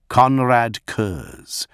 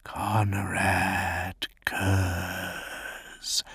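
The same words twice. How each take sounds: First: Slow, loud, proud naming; slow proud declaration. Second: Slow, hushed whisper of the name. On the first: A narrator's reading. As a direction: declare the name slowly. He names himself. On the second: Acted. The night haunter whispering his own name, slow whisper. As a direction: breathe the name, drawn out. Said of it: "he whispered".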